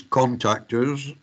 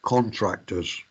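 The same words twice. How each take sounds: First: Contactors said distinctly, with no R after the T; careful contrast. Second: Contractors said distinctly, with an R after the T; contrasted wrong word. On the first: Lecturer correcting students' exam mistake, contactors pronounced distinctly. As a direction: pronounce contactors carefully, CON-tac-tors. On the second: Lecturer warning students off the wrong term, contractors pronounced distinctly. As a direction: pronounce contractors carefully, sounding the TR. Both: Shown as a demonstration. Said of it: "it is contactors and not contractors".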